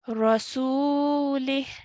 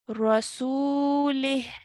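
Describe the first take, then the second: First: The word ends on a bare h sound. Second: The same.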